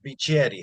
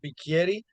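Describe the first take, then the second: First: The name is pronounced the Mexican way. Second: The name is pronounced the Italian way. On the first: "the Mexican side says Bicheri" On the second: "Italian side of my family says Bicheri"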